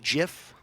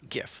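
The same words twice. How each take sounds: First: The word begins with a soft j sound. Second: The word begins with a hard g sound. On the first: The speaker calls it wrong. "It's not pronounced GIF. That's a peanut butter" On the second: The speaker calls it right. "It's like gift, but without the T"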